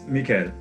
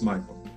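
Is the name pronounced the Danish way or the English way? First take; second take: Danish; English. First: The name is said with a Danish pronunciation. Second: The name is said with an English pronunciation. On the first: This is how it is said at home. "in Denmark, it's Mikael" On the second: This is how it is said abroad. "As soon as we cross the border, it's Michael"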